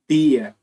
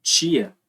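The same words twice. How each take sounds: First: Tia with a tch sound, like chia; palatal tia. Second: Tia with a hard, plain T. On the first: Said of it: "pode ser pronunciado como". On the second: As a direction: keep the T in tia crisp and stopped. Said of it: "ou como". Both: Shown as a demonstration.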